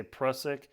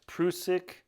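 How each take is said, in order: First: "Prusik" with a short u, PRUSS-ik; climbers' pronunciation. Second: "Prusik" with a long oo, PROO-sik; alternative pronunciation. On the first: How climbers he met say it, "Prusik" as PRUSS-ik. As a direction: say "Prusik" to rhyme with Russ-ick. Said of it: "almost all the climbers I've ever met say". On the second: What some people told the climber, "Prusik" said PROO-sik. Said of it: "told me this is pronounced". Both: Shown as a demonstration.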